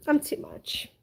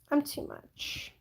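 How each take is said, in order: First: Said in the usual way. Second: Breathy slow self-tease, whispered. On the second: Real, not acted. To stream viewers, a slow whispered self-tease. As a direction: whisper it slowly, teasing yourself.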